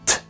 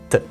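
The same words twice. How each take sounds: First: The t has a puff of breath after it. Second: The t has no puff of breath. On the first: "Im Deutschen" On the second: "Im Lateinischen ... keinen Hauch"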